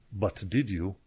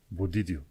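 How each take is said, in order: First: Each word is said separately and fully. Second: The words run together with linked sounds. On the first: "așa se scrie" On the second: "dar când se citește e but did you"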